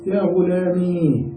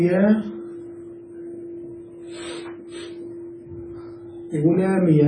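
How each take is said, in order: First: غلامي ending in a long, still "ee"; sukun on ya. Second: غلامي ending in "-miya"; fatha on ya. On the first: Teacher showing first permitted form, غلامي with a drawn-out silent ya. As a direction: stretch the end of غلامي slowly, no vowel after ya. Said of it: "بتسكين الياء". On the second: Teacher showing second permitted form, غلامي voiced as "ghulamiya". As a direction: add a short "a" after the ya of غلامي. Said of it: "بفتح الياء". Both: Shown as a demonstration.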